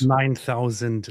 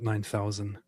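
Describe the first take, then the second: First: The final d sound is clearly pronounced. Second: The final d sound is left off. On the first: The speaker calls it right. "It's called" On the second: The speaker calls it wrong. "not nine thousand. There is a D at the end"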